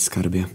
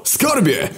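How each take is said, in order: First: Much softer muffled endearment. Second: Much higher shouted endearment; excited yell. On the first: Agata on speakerphone, muffled and soft. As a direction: drop it away, far through the phone. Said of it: "usłyszeliśmy stłumiony głos Agaty". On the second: War calling his girlfriend over the phone. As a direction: shout it eagerly. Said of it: "Wydarł się do słuchawki". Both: Acted.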